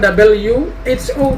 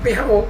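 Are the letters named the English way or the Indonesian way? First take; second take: English; Indonesian. First: The letters get their English names. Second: The letters get their Indonesian names. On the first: The speaker calls it wrong. "bukan W H O" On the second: The speaker calls it right. "tetapi tetap W H O"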